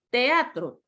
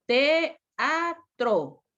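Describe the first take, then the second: First: Said in the usual way. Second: "teatro" broken slowly into te-a-tro; split into syllables. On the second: Shown as a demonstration. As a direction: pause between each syllable of "teatro". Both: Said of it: "Yo separo estas dos".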